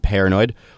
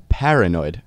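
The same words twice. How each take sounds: First: The first syllable sounds like the fruit pear. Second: The first syllable sounds like par, not pear. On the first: "pear, as in the fruit" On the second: "as in what it is"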